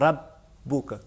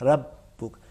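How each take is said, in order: No difference in how they are said.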